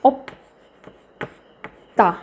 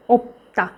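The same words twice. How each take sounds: First: Drawn out very slowly for learners; ओप्ता spoken slowly and deliberately, syllable by syllable; slow syllable-by-syllable demo. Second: Said in the usual way. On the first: Shown as a demonstration. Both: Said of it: "आप बोल सकते हो".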